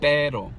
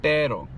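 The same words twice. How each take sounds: First: The R is flapped and the P is unaspirated. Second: The R is flapped and the P is unaspirated.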